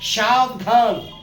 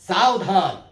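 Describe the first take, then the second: First: The word begins with a 'sh' sound. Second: The word begins with an 's' sound. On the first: The speaker calls it wrong. "ये सही है? नहीं" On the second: The speaker calls it right. "सावधान होगा"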